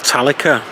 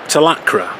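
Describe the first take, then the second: First: The name is said to end like Metallica. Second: The name is said the plain way.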